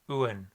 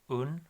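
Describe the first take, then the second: First: It has a 'w' glide and an 'e' vowel. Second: It is a plain 'un' with no glide. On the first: The speaker calls it right. "it's uen" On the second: The speaker calls it wrong. "It's not un"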